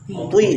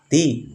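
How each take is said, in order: First: The syllable sounds thick with pouted, rounded lips. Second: The syllable sounds thin, like a plain t. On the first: "Tidak boleh monyong monyong juga... itu juga enggak boleh" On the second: "Kalau dibaca ti sama dengan ta. Salah kan?"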